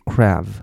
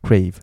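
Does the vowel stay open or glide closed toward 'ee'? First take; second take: open; glides closed. First: The vowel stays open without closing. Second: The vowel glides closed toward 'ee'. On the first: The speaker calls it wrong. "他会念成crave，这样不对" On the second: The speaker calls it right. "然后你念快crave，这样就OK"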